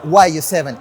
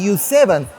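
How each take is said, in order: First: YU is spelled out as two letters. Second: YU is said as the single word 'you'. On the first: The speaker calls it wrong. "not the Y U seven" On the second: The speaker calls it right. "it is the correct way to pronounce it"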